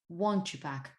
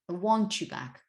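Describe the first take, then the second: First: The t and y merge into ch. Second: The same.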